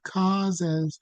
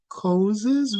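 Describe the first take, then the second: First: The first vowel is wide and open. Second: The first vowel is narrow and closed. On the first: The speaker calls it right. "we say causes. And whenever we have an all, we open it" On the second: The speaker calls it wrong. "we don't say causes"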